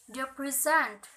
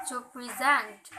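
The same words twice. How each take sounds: First: Weight on the first syllable of present, second one reduced; stress on first syllable. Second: Light first syllable, weight on the end of present; stress on second syllable. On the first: Teacher contrasting noun and verb, first-syllable stress on present. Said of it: "the stress pattern, primary unstressed". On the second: Teacher contrasting verb with noun, second-syllable stress on present. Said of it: "unstressed primary indicate". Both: Shown as a demonstration.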